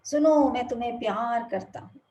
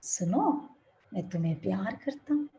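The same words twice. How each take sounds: First: Louder call of love into the hills; father calling love across the valley; loud loving call. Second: The mountain echoing back the father's words; fading echo. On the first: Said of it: "जोर के चीखते हैं". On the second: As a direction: let the words die away like an echo. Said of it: "अब आवाज क्या आएगी?". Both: Retold or imitated.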